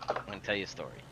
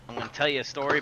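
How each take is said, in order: First: Dropped low and soft, leaning in; soft, low confiding repeat; hushed storyteller. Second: Said in the usual way. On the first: Shown as a demonstration. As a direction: pull them in with a near-murmur. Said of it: "repeats it hushed for effect". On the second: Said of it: "builds up to a story".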